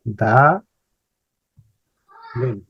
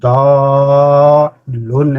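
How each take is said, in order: First: The two syllables are split apart. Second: The two syllables are joined together smoothly.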